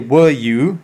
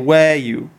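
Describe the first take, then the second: First: The word 'were' is said in its reduced, weak form. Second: The word 'were' is said in its full, strong form. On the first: The speaker calls it wrong. "You don't say were you" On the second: The speaker calls it right. "You have to say were you, right? Because it's a question tag"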